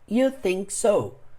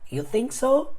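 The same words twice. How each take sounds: First: The voice stays level or falls at the end. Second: The voice rises at the end like a question.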